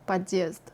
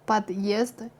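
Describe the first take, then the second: First: The d before the vowel is soft. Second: The d before the vowel stays hard. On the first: The speaker calls it wrong. "is not" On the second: The speaker calls it right. "stays hard and uninfluenced"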